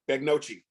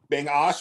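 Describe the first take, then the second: First: It starts with 'beg' and ends in 'nocchi'. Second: It starts with 'bing' and ends in 'osh'. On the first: The speaker calls it wrong. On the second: The speaker calls it right.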